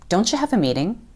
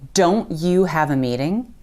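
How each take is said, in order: First: The t and y blend into a ch sound. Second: The t and y are said as separate sounds. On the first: "you're going to hear us say" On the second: "instead of"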